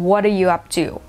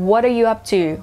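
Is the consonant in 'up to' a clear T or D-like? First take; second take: D-like; D-like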